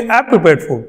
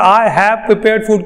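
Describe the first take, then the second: First: I have prepared food run fast as I've prepared; quick native contraction. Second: I have prepared food said slowly, each word apart; the learner's slow full form; slow separated I have. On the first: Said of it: "वो बोलेंगे". (अंग्रेज़ों की तरह तेज़) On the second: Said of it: "हमें तो आदत है". (I have धीरे अलग अलग) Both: Shown as a demonstration.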